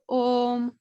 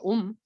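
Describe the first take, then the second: First: The vowel is held long. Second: The vowel is held short. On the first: The speaker calls it right. "It's a dirga. It's two matras" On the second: The speaker calls it wrong. "you don't go om"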